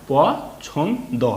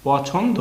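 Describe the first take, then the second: First: "প ছন দ" in three separate pieces with pauses; broken into parts. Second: "পছন্দ" run together as one word, higher; blended whole word. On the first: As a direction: say প, then ছন, then দ, each apart. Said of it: "একবার ভাঙলাম, উচ্চারণ করলাম একবার". ("প ছন দ" ভেঙে ভেঙে উচ্চারণ) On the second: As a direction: join প, ছন and দ smoothly into পছন্দ. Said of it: "কি হলো তাহলে?". ("পছন্দ" একসঙ্গে মিলিয়ে বলা) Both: Shown as a demonstration.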